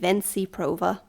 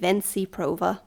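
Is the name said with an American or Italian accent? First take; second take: American; American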